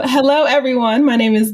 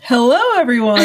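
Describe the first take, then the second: First: A touch of a lifted announcer hello. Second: Chuckling hello, voice warm with laughter; laughing greeting. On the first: Shown as a demonstration. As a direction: greet them like an event announcer. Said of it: "I needed my announcer voice". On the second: Real, not acted. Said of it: "I feel like I needed my announcer voice".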